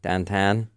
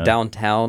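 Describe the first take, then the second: First: It is said in a Pittsburgh accent. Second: It is said in a standard American accent.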